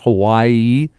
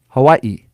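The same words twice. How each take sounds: First: The word is said without a glottal stop. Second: The word is said with a glottal stop. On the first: The speaker calls it wrong. "So not Hawaii" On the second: The speaker calls it right. "a pronunciation indicator for a glottal stop"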